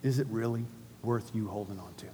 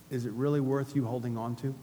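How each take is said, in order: First: Repeated much softer and lower; hushed. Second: Soft question. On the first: Pastor asking the congregation again, hushed. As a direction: let the question sink in quietly. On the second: Repeated question, quieter. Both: Shown as a demonstration.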